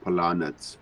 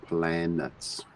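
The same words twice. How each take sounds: First: Planets with an open "ah", pla-nets; wrong pronunciation. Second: Planets with the short A of "plan"; corrected pronunciation. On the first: Retold or imitated. Teacher showing the mistake, planets said as puh-lah-nets. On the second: Shown as a demonstration. Teacher correcting the learner, planets said as PLAN-ets. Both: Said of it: "not planets".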